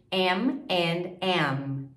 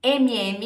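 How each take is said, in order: First: "M and M" slowly, word by word; very slow model of "M and M"; English pronunciation. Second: "M M" as "emi emi"; Portuguese letter names for "M M". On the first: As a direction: separate English "em, and, em" for "M and M". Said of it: "em inglês". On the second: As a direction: say "M M" Brazilian-style, vowels after each M. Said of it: "M M em inglês". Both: Shown as a demonstration.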